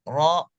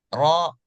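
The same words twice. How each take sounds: The two takes are said the same way.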